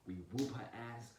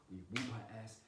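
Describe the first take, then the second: No difference in how they are said.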